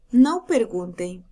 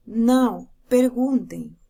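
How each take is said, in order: First: Said in the usual way. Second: Slower, "Não" stressed and split from "perguntem"; slowly: "Não", pause, "perguntem"; slow comma reading. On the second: Shown as a demonstration. Teacher shows the comma version slowly, stressing "Não". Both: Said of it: "Na terceira".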